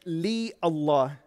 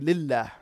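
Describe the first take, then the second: First: The two words are said separately. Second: The two words are merged into one. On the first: The speaker calls it wrong. "you don't say in the Arabic language li Allah" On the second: The speaker calls it right. "you say lillah, for it is easier in terms of pronunciation"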